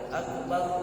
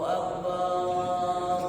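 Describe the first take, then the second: First: The second syllable's vowel is kept short. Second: The second syllable's vowel is drawn out long. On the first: It means most great. The speaker calls it right. "Padahal harusnya Akbar" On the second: It means drum. The speaker calls it wrong. "barnya jadi panjang"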